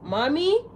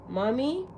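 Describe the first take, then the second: First: It is called out loudly. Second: It is called out softly.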